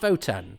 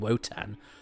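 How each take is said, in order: First: The name begins with a V sound. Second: The name begins with a W sound. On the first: This is how it is said on the show. "why do they pronounce it Votan? Because it's it is it is with a W" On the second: This is how the speaker expected it to be said. "I'd always thought it was called Wotan"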